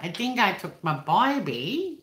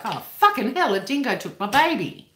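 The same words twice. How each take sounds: First: Slow, put-on Cockney twang, higher pitched; mock film-Cockney impersonation. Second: High, loud mock alarm in own accent; hypothetical Australian outburst. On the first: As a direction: draw out "baby" into a rising "byebee". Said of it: "I wouldn't be like". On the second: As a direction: cry out as an everyday Aussie would, hammed up. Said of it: "an Australian person, like, if I was".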